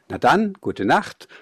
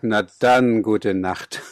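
First: It sounds like a sincere good-night wish. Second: It sounds ironic, as if all is lost.

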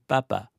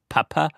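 First: The first consonant is a soft, unaspirated stop. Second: The first consonant is a hard, aspirated stop.

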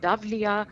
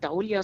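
First: The middle has a 'v' consonant sound. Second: The middle has an 'ow' vowel sound. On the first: The speaker calls it right. "sondern Davlia" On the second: The speaker calls it wrong. "nämlich nicht Daulia"

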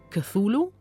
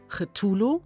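First: The name is pronounced the English way. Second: The name is pronounced the German way. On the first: "oder englisch" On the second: "Oder etwa doch"

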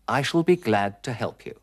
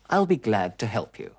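First: Shall is said as its own word. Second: Shall is shortened and joined to I.

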